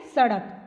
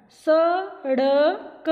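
First: Said in the usual way. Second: सड़क stretched slowly, the ड़ tongue flicked; सड़क, slow with flapped ड़. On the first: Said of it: "जैसे देखो ये क्या बनी हुई है". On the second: Shown as a demonstration. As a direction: draw out सड़क and flap the ड़ clearly. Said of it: "इसको हमने क्या बोलना है". (सड़क को धीरे-धीरे, ड़ को उछालकर बोलो)

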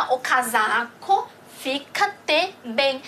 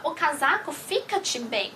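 First: Slow, spaced out word by word, "fica-te" drawn out; slow model reading. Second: Said in the usual way. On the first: Shown as a demonstration. Teacher models a Portuguese example for learners, slow and segmented. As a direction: read "o casaco fica-te bem" slowly in separate pieces.

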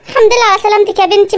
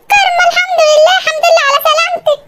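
First: Said in the usual way. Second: Relieved mother. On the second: Acted. Mother greeting daughter waking up, high relieved cry. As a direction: burst out in tearful relief as the mother.

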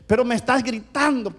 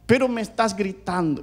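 First: High, insistent complaint; acting out the wife's accusation; complaining wife. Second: Mildly plaintive imitation of a wife; complaining wife. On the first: Wife insists husband is yelling, protesting. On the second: Wife repeats her complaint to husband, plaintive. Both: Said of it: "me decía".

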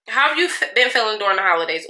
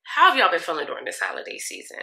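First: Fast, tumbling "been feeling during the holidays"; rushed question. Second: Deliberate, evenly paced retake of "How have y'all been feeling"; slowed down. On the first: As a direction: rattle it off too quickly. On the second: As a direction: take it slower and clearer this time. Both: Shown as a demonstration. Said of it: "let me slow down".

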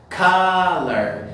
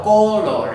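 First: "Color" as KUH-ler, drawn out and louder; correct English pronunciation. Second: "color" as Spanish co-LOR, louder; wrong Spanish-style pronunciation. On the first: Teacher showing how the word is pronounced, emphatic English "Color" as KUH-ler. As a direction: model "Color" loudly with an English uh and weak ending. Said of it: "La pronunciación de la palabra es color".

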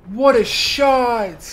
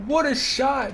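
First: Slow admiring drawl. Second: Said in the usual way. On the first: Acted. Gamer marvelling at the shot, dragged out slowly. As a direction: stretch it out, slow and awed.

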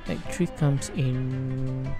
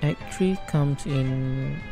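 Both takes have the same delivery.

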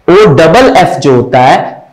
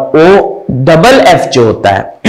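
No difference in how they are said.

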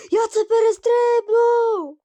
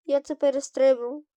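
First: High, loud triumphant yell; slow, stretched cry of triumph; excited shout. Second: Said in the usual way. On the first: Real, not acted. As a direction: shout it out in victory. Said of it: "triumphant repeat after jump".

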